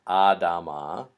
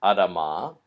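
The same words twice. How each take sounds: First: Adama with a long, drawn-out first "ah"; wrong pronunciation. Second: Adama with a short, reduced first vowel; correct pronunciation. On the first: Teacher showing how not to say it, wrong long first vowel in Adama. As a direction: stretch the first vowel of Adama like "AH-dah-mah". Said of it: "not Adama". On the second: Teacher showing students how this word is pronounced, correct short first vowel in Adama. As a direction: say Adama with a quick first "A" and long final "ah". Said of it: "this word is pronounced". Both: Shown as a demonstration.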